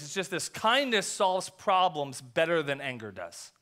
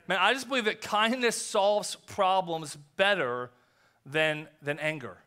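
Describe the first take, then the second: First: "kindness solves problems better than anger does" said slowly, leaning on "kindness"; slow, weighty statement. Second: Said in the usual way. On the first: Shown as a demonstration. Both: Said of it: "I want you to write this down".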